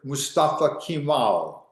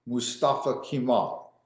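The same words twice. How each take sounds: First: Slow, careful spelling-out of Mustafa Kemal; teacher pronouncing "Mustafa Kemal" deliberately slow for the class; name said slowly. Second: Said in the usual way. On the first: Shown as a demonstration.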